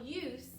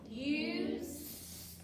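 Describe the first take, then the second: First: Said in the usual way. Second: "Use" stretched into "yoo", then a long separate "sss"; sounding out. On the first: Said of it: "let's look at the first syllable". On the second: Shown as a demonstration. Teacher has pupils count sounds, "Use" pulled apart sound by sound. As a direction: draw out each sound in "Use". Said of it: "let's say the sounds in use".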